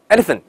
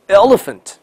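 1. 英式口音，L 发音平直。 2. 美式口音，L 分暗 L 和清 L。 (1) "英式发音" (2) "美音"

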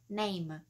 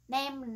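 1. Nguyên âm là âm 'ay' trượt, kéo dài. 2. Nguyên âm là âm 'eh' ngắn, phẳng. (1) "nó là âm a" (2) "mình thường mình hay nghe nói là my name"

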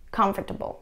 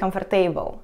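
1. Один слог опускается, и немой звук не произносится. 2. Каждый написанный слог произносится, включая немой. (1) "а vegetable. Comfortable" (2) "не vegetable и comfortable"

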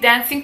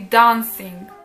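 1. To słowo jest wymawiane z akcentem nie-brytyjskim. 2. To słowo jest wymawiane z akcentem brytyjskim. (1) "On nie mówi dancing" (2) "tylko mówi dancing"

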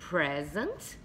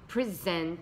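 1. O acento está na primeira sílaba. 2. O acento está na segunda sílaba. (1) "com acento aqui no pré" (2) "com acento aqui no zent"

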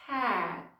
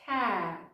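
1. Фінальний звук T затримується в роті й майже зникає. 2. Фінальний звук T затримується в роті й майже зникає.

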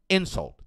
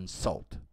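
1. A tônica está na primeira sílaba. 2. A tônica está na segunda sílaba. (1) "como substantivo, é insult. A tônica está na primeira sílaba" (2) "como verbo insultar, é to insult"

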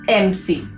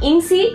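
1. यह शब्द 'em' की आवाज़ से शुरू होता है। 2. यह शब्द 'in' की आवाज़ से शुरू होता है। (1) "इट्स एमसी" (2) "इट्स नॉट इनसी"

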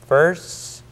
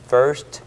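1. 마지막 t는 파열 없이 멈춰 있습니다. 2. 마지막 t는 분명히 파열됩니다. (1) "T가 파열되지 않기 때문에" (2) "한 개씩 여러분께서 단어를 읽으신다면 first 이와 같이 T를 들을 수가 있습니다"

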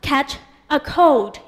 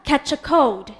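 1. แต่ละคำพูดแยกกันและชัดเจน 2. คำเหล่านี้พูดเร็วและเชื่อมติดกัน

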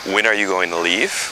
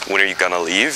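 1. 'Going to'는 전체로 말해요. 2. 'Going to'는 gonna로 줄여요.

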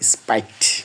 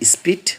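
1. স্বরধ্বনিটি একটি 'ai' যৌগিক স্বরধ্বনি। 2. স্বরধ্বনিটি একটি ছোট 'i' ধ্বনি। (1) "অথবা অনেকে বলে স্পাইট, দুইটা উচ্চারণ ঠিক আছে" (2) "SPIT স্পিট"

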